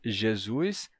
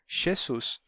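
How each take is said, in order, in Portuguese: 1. Os sons de j e s são sonoros. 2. Os sons de j e s são surdos. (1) "português" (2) "a gente teve a dessonorização desse J e desse Z"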